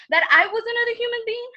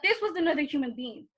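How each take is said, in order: First: Louder, higher repeat of "I was another human being"; "I was another human being" raised in disbelief; indignant emphasis. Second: Said in the usual way. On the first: Acted. Indignant repeat, pointing to herself.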